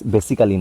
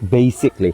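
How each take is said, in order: First: The 'al' syllable is fully pronounced. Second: The 'al' syllable is dropped. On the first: The speaker calls it wrong. "বেসিক্যালি না" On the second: The speaker calls it right. "কিন্তু বেসিকলি"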